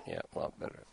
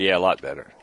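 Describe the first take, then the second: First: Breathy unvoiced aside, much softer; whispered to himself. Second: Said in the usual way. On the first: Real, not acted. Host murmurs to his producer off-mic, whispered. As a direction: say it under your breath as an aside.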